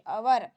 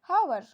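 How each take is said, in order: First: The word begins with a vowel sound. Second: The word begins with an h sound. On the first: The speaker calls it right. "एच जो शब्द है वो silent है" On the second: The speaker calls it wrong. "हम इसको क्या पढ़ेंगे, हावर"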